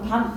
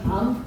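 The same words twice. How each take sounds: First: The vowel is kept short. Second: The vowel is held long. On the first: It means night. "짧게 발음하는" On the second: It means chestnut. "먹는 밤은 밤"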